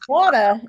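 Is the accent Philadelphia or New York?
New York. It is said in a New York accent.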